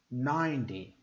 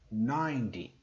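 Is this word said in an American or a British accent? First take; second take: American; American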